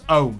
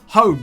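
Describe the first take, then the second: First: The h at the start is dropped. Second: The h at the start is pronounced.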